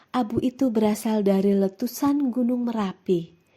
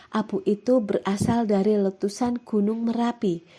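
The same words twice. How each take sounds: The two takes are said the same way.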